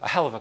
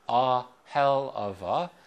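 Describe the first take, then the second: First: The phrase is said quickly and run together. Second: The phrase is said slowly and carefully. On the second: "If I say slowly"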